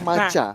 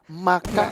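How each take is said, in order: First: The middle consonant is a ch sound. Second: The middle consonant is a k sound. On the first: "Tapi yang bener Maca ya" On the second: "dibacanya maca apa maka"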